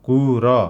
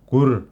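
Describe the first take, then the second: First: The final r sound is full, not shortened. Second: The final r sound is clipped short. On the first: The speaker calls it wrong. "रातोमा लेखिएको जस्तो कुर नभनेर" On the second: The speaker calls it right. "रलाई छोट्याएर कुर भनेर उच्चारण गर्ने"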